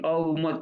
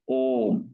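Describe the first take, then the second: First: It is broken into three separate sounds. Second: It is said smoothly as one syllable. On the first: The speaker calls it wrong. "न कि अ उम तीन अक्षर बोलना है" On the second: The speaker calls it right. "एक ही अक्षर में उच्चारण करना है"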